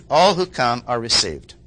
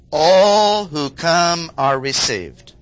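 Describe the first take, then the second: First: Said in the usual way. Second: Slow, loud, every word weighted; emphatic statement. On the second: Real, not acted. Preacher driving home his point to the congregation, slow and emphatic. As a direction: lay down "All who come are received." slowly and firmly.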